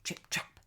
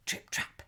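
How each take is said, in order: Both takes have the same delivery.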